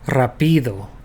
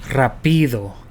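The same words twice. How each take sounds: First: The stress is on the second syllable. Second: The stress is on the second syllable.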